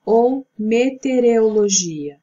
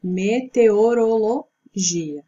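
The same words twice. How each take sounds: First: Meteorologia slurred as mete-re-o-logia; drawn-out meteorologia with the syllables jumbled; wrong pronunciation. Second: Slow, careful meteorologia, me-te-o-ro-lo-GI-a; correct pronunciation. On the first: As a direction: meteorologia said the mistaken way. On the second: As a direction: spell meteorologia out syllable by syllable. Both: Shown as a demonstration. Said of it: "que é a correta".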